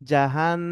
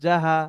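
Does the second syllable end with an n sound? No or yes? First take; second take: yes; no. First: The second syllable ends with an n sound. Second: The second syllable ends without an n sound. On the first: The speaker calls it right. "এখানে কি হবে?" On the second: The speaker calls it wrong. "অনেকেই এভাবে বলতেছে"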